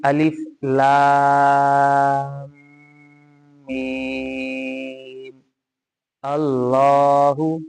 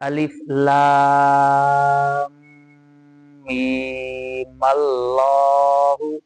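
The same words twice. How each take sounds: First: Meem and Allahu are said separately, with a break. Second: Meem runs straight into Allahu as meemallahu. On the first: "ये अलिफ लाम मीम को अलग पढ़ा है, अल्लाहु को अलग पढ़ा है।" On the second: "इकट्ठा पढ़ेंगे तो पीछे से मिलाकर पढ़ा जाएगा मीम के साथ"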